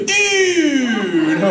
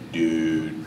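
First: It is said with bright, excited energy. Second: It is said in a low, disappointed tone. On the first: Something is awesome. "if something's awesome, you go" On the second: The speaker is bummed out. "if you're just bumming out, you know, you can go"

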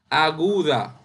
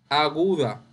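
No difference in how they are said.

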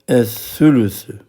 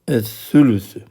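No difference in how they are said.

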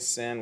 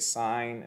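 First: The word has a short vowel, like 'sin'. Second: The word has a long vowel, like 'sign'. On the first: The speaker calls it wrong. "We don't say sin" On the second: The speaker calls it right. "we say sine"

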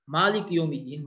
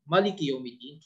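First: The first vowel of the first word is long. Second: The first vowel of the first word is short. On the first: God is the master of the day of judgment. "master of the day of judgment" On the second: God is the king of the day of judgment. "king of the day of judgment"

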